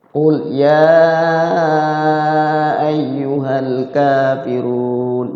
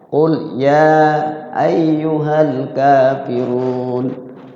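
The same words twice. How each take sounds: First: The long vowels are stretched beyond two beats. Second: The long vowels are held about two beats. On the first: The speaker calls it wrong. "Melebihi dua ketukan" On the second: The speaker calls it right. "Dua ketukan semua itu"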